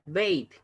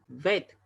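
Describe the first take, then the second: First: The vowel glides like 'ay'. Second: The vowel is a plain, steady 'e'. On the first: The speaker calls it wrong. "Ahí no se pronuncia bait, ojo con eso" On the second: The speaker calls it right. "se pronuncia vet"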